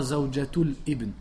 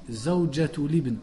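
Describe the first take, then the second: First: Zawjatul ibn with a stop before ibn; wrong hamza. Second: Zawjatul ibn linked as zawjatulibn; correct liaison. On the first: (zawjatul ibn avec hamza fautive) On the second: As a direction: run zawjatul ibn together. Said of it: "on dit". (zawjatul ibn lié) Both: Shown as a demonstration.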